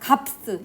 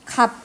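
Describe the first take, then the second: First: The word ends with an extra s sound. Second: The word ends on a p sound, no s. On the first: The speaker calls it wrong. "갑스 이런 식으로 발음 안 하잖아" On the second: The speaker calls it right. "이거를 발음할 때는 갑 이렇게 발음하지"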